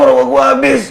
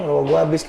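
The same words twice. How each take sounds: First: It is shouted loudly with strain. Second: It is said calmly at normal speaking volume. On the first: The speaker calls it wrong. "Nggak mungkin lo ngomong kayak gitu" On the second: The speaker calls it right. "kan gitu"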